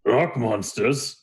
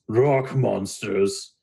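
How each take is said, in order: First: Slow, questioning Minotaur; drawn-out, mildly puzzled query; quizzical. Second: ROCK MONSTERS drawn out very slowly, in quotes; "rock monsters" said slowly, set apart as dubious; air quotes. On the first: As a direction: repeat it slowly as a puzzled question. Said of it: "looks at you quizzically and he goes". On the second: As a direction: stretch "rock monsters" as a skeptical quotation. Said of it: "he does big air quotes". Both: Acted.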